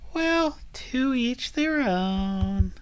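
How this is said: It is said in a cutesy voice.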